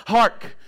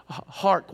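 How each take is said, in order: First: "Hark" called out louder in a folksy Andy Griffith way; a hint of Andy Griffith on "Hark". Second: "Hark" said lightly in a theatrical stage manner; a touch of stage actor on "Hark"; hammy stage Hark. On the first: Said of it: "I was more like Andy Griffith". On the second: Retold or imitated. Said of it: "trying to read that".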